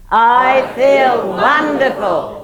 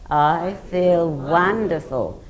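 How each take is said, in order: First: It is said very loudly. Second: It is said loudly.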